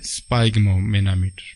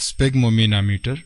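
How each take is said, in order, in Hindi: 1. शब्द की शुरुआत 'spaig' आवाज़ से होती है। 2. शब्द की शुरुआत छोटी 'sfig' आवाज़ से होती है। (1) "न कि स्पाइग्मोमेनामीटर" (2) "यह लफ्ज स्फेग्मोमेनामीटर प्रोनाउंस होता है"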